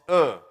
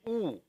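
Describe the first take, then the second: First: The vowel is an open 'uh' sound. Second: The vowel is a rounded 'oo' sound. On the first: The speaker calls it wrong. "the dhamma in Turkey is not dham. It's uh" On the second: The speaker calls it right. "It should be oo"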